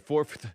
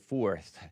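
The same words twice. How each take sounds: First: An f sound comes before the final th. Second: No f sound comes before the final th. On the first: "I like to say fourth" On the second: "but it's actually fourth"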